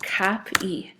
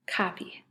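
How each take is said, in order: First: "Cop-E" with a break before the long E; split into syllables. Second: Said in the usual way. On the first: Shown as a demonstration. Teacher explaining the ending of a word, "Cop-E" in two syllables. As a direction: part "Cop-E" into two clear beats. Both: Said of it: "end of a two-syllable word".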